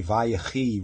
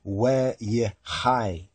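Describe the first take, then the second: First: Vayechi with a V start and "ee" ending; common Hebrew pronunciation. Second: Weyechai with a W start and "eye" ending; corrected pronunciation. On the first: Teacher quoting how they say it, common pronunciation, Vayechi ending in "ee". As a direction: say Vayechi, opening "vai", closing "khee". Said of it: "they say Vayechi, really it's Weyechai". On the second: Teacher giving what it really is, corrected pronunciation, Weyechai ending in "hai". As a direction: slowly sound out Weyechai as weh-yeh-HAI. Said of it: "really it's Weyechai". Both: Shown as a demonstration.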